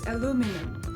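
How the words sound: Three syllables, stress on the second. "American English has three syllables with the emphasis on the second"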